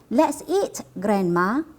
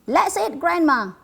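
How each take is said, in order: First: There is a pause before Grandma. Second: It runs on with no pause before Grandma.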